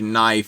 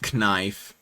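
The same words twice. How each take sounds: First: The K at the start is silent. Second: The K at the start is pronounced. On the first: "the K in words where it is silent" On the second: "the K in words where it is silent is not silent"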